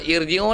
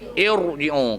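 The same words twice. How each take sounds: First: The r is said light and thin. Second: The r is said heavy and full. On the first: The speaker calls it wrong. "No, no, no" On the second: The speaker calls it right. "kena baca irji'u"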